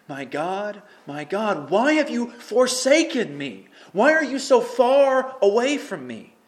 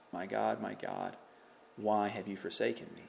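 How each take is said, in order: First: Loud, high, slow anguished plea; anguished cry. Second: Soft, low, hushed question; quiet plea. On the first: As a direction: cry out to God from the dark. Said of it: "this is a dark place to be". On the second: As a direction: murmur the lament almost to yourself. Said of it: "He's asking". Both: Acted.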